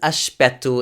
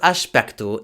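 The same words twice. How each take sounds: First: It is said the European Portuguese way. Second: It is said the Brazilian Portuguese way.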